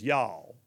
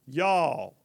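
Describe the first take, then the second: First: Low, drawn-out y'all of disbelief; a Southern mama staring in dismay. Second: Louder, emphatic y'all of exasperation; a Southern mama throwing up her hands. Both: Retold or imitated. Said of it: "a Southern mama just looks at something and goes".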